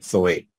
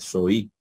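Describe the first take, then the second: First: The word ends with an 'eh' vowel. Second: The word ends with an 'ee' vowel. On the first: This follows the Erasmian pronunciation system. "pero estamos usando el erasmiano" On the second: This follows the historical or modern pronunciation system. "si tuviésemos utilizando el sistema de pronunciación histórico o moderno"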